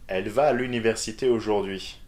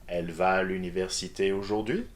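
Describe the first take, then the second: First: The voice falls at the end. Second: The voice rises at the end.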